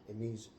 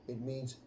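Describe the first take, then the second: The two takes are said the same way.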